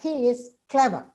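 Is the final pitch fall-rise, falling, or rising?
falling. The pitch falls at the end. It is a plain statement. "With a falling means it's a statement"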